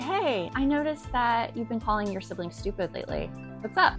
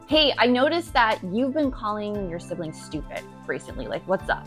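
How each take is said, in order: First: It sounds curious and open. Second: It sounds accusatory and confrontational.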